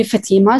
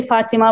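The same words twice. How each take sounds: First: "Fatima" said fa-TEE-ma; "Fatima" with a stressed TEE; stress on second syllable. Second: "Fatima" said FA-ti-ma; "Fatima" with a stressed FA; stress on first syllable. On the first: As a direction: lean on the middle of "Fatima". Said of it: "So I go by Fatima". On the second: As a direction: put the weight on the start of "Fatima". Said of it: "Usually people say Fatima". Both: Shown as a demonstration.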